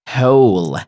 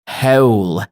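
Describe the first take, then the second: No difference in how they are said.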